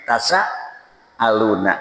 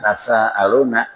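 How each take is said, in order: First: The s sound is doubled and held. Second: The s sound is short and light. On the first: They ask one another. "tapi tasaaluna, ada tasdidnya" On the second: They ask in God's name. "bukan tasaaluna"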